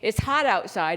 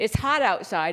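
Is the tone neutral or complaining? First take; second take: neutral; neutral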